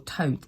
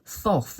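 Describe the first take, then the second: First: The name sounds like toad, with t sounds. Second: The name begins and ends with a th sound.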